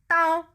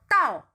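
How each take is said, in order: First: The syllable is said on a flat, level tone. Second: The syllable is said on a sharp, accented tone. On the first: It means knife. "como un tono que es como llano" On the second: It means to arrive. "el tono cuatro que es como con acento"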